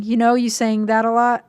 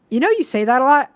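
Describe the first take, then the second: First: Said in the usual way. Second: "you" lifted and a bit louder at the start; stress on you. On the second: Shown as a demonstration. Rereading the match's text, "you" pushed up and louder. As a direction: lean on "you" in "You know, you say that a lot".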